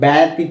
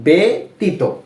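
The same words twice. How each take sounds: First: The first vowel sounds like the 'a' in 'bad'. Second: The first vowel sounds like the 'e' in 'bed'. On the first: The speaker calls it wrong. "আমরা কিন্তু ব্যতীত এভাবে পড়ছি না" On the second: The speaker calls it right. "এর মতো উচ্চারণ হবে এ"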